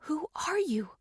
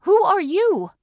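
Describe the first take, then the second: First: Softer, higher question in the mind; inner thought. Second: Loud, high startled question; frightened aloud. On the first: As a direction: ask it silently, in thought. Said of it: "I thought at Winston". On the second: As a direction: blurt it out in fright. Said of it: "I asked aloud, frightened by the invasion". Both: Acted.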